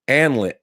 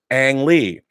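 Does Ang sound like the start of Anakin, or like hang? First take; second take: Anakin; hang. First: Ang sounds like the start of Anakin. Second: Ang rhymes with hang, without the H. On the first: "try pronouncing Ang like the first syllable in Anakin" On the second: "like hang without the H"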